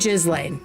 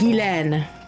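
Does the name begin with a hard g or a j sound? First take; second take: j sound; hard g. First: The name begins with a j sound. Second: The name begins with a hard g sound. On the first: It is the form used for this one person. "But for her, it can be Ghislaine" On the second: It is the usual form of the name. "if you ever meet someone and their name is is G H I S L A I N E, it's Guylaine"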